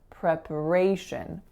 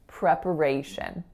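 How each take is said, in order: First: The second syllable is a very short schwa. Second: The second syllable is a very short schwa.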